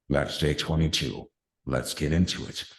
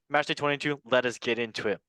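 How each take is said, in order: First: It is said in an epic voice. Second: It is said in a normal voice.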